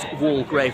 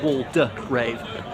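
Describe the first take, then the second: First: The name has two syllables; the middle is silent. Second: The name has three syllables; the middle is pronounced. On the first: The speaker calls it right. "I think it's going to be pronounced Walgrave" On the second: The speaker calls it wrong. "not Waldegrave"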